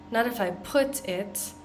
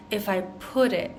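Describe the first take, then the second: First: "put it" with a crisp released T, marked as wrong; hard T in put. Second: "put it" with the T tapped like a D, "pudit"; flapped T in put it. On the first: Teacher shows the wrong hard T in "put it". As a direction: say "put it" with a sharp stopped T, the way not to. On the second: Teacher models "put it" as a linked flap. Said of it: "we're not really pronouncing that T like t". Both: Shown as a demonstration.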